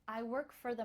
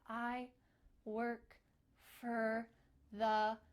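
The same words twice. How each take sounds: First: The words run quickly together, linked. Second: The words are said slowly and separately. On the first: The speaker calls it right. "You need to link it together" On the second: The speaker calls it wrong. "it's a little bit weird"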